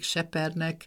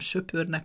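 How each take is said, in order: First: The vowels are said with spread lips. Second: The vowels are said with rounded lips. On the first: It is the regional dialect form. "hanem mindig sepernek" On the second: It is the standard form. "soha nem söpörnek"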